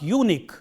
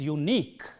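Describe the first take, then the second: First: The stress is on the first syllable. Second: The stress is on the second syllable. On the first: The speaker calls it wrong. "It is not unique" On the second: The speaker calls it right. "but it is unique"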